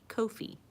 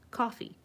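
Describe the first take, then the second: First: It is not said like the word coffee. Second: It is said exactly like the word coffee. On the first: The speaker calls it wrong. "I know some people say Ko-fi" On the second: The speaker calls it right. "it is pronounced coffee"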